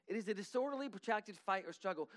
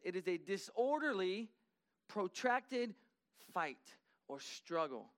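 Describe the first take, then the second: First: Said in the usual way. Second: Disorderly, protracted, fight or struggle spaced apart with pauses, protracted lifted; slow emphatic definition. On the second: Shown as a demonstration. Preacher defining fray to the church, words spaced with pauses. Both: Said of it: "The noun part of the fray means this".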